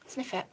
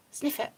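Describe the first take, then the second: No difference in how they are said.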